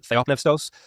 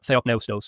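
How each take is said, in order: First: It is pronounced the modern Greek way. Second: It is pronounced in a non-modern-Greek way. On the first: "I use uh, modern Greek pronunciation" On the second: "others would say"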